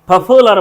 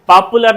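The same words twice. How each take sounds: First: The first consonant has a strong puff of air. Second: The first consonant has no puff of air. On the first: The speaker calls it right. "पॉपुलर बोलेंगे" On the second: The speaker calls it wrong. "पॉपुलर नहीं"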